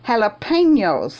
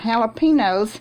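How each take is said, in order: First: The middle syllable is said with a 'ny' sound. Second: The middle syllable is said without a 'ny' sound. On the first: The speaker calls it right. "it's called jalapenos" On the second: The speaker calls it wrong. "I've been calling them jalapenos"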